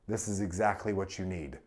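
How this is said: It is said flat, in a monotone. The speaker seems disinterested or condescending. "flat and monotone"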